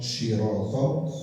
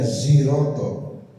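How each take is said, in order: First: The word starts with a heavy, emphatic s. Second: The word starts with a buzzing z. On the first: "dengan sod" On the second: "dengan za"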